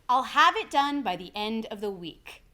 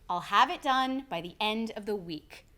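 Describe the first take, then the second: Both takes have the same delivery.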